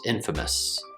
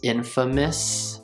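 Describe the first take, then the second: First: The last syllable has a schwa, said quickly. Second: The last syllable sounds like miss, said slowly. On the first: "when we speak more quickly, that also becomes the schwa sound" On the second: "If you're speaking slowly, the last syllable might sound like miss"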